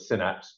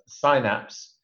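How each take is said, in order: First: The word is pronounced the American way. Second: The word is pronounced the British way. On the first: "The Americans call it Synapse" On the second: "in British pronunciation"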